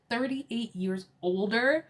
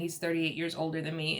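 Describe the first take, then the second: First: Slow, higher incredulous question; mock shock. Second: Said in the usual way. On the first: Guests learn of Mia's older husband, mock shock. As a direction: repeat it slowly, rising at the end in disbelief. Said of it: "You should have seen Robin's face". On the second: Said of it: "Okay, like, I have an older husband".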